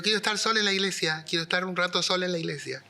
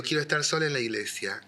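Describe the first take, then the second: First: Retold insistence, higher and quicker; raised pitch, politely insisting; insistent repeat. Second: Said in the usual way. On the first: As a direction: press the request on a baffled listener. Repeats request to astonished secretary.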